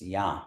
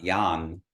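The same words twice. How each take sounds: First: Ya left open, with no N closing it; nasalized A in ya. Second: Yan closed with a clear N, the wrong way; sounded N in yan. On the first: Teacher corrects the word for students, nasalized open ya. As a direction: let the A of ya ring through the nose. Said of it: "mark that the A is nasalized". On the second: Teacher shows students the mistake to avoid, sounded N on yan. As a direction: end yan on an audible N. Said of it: "not saying yan like the N". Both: Shown as a demonstration.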